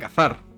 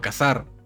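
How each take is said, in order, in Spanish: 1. La z se dice con sonido th. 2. La z se dice con sonido s. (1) "no decimos como en España cazar" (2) "Lo pronunciamos cazar... La pronunciación es con S"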